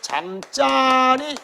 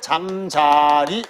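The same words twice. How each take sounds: First: The second syllable starts with a tense consonant. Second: The second syllable starts with a plain consonant. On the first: It means a place to sleep. "잠자리 이렇게 발음한다는 거지" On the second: It means a dragonfly. "잠자리 이렇게 발음하고"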